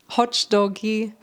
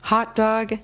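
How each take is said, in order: First: An extra vowel is added after the final g. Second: The word ends abruptly on the final g. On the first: The speaker calls it wrong. "adding an extra syllable or an extra sound to the end" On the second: The speaker calls it right. "We pronounce it more abruptly"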